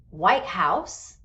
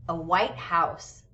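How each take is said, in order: First: "White House" with the main stress on WHITE; compound noun stress. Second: "a white house" with equal weight on WHITE and HOUSE; stress on both words. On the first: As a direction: hit "White", let "House" follow as one unit. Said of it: "this is a compound noun". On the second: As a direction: give "white" and "house" each their own stress. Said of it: "both nouns are usually stressed". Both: Shown as a demonstration.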